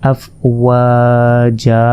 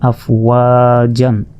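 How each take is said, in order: First: The word ends in a long vowel without n. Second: The word ends with a short vowel plus n. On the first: The reader stops at this word. "এখানে যদি আমরা ওয়াকফ করি তাহলে হবে আফ ওয়া জা" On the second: The reader continues without stopping. "তাই আফ ওয়া জান"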